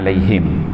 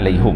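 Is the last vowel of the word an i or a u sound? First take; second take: i; u. First: The last vowel is an i sound. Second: The last vowel is a u sound. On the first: "perkataan alaihim" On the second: "dibariskan depan alaihum"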